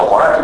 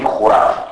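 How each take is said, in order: First: "χωράφι" as choraf, o kept, final i dropped; Kastoria pronunciation. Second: "χουράφι" as churaf, with u and no final i; raised first vowel. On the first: Lecturer showing Kastoria speech, "χωράφι" said choraf. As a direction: say "χωράφι" with a clear o and no last vowel. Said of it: "στην Καστοριά το χωράφι προφέρεται". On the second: Lecturer giving the form Kastoria avoids, "χουράφι" said churaf. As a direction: make the first vowel of "χουράφι" a u, drop the last. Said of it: "όχι χουράφι". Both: Shown as a demonstration.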